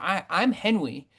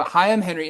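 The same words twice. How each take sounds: First: Lightly voiced toddler; baby voice. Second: Said in the usual way. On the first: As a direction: babble it like a small child. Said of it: "like, a baby voice".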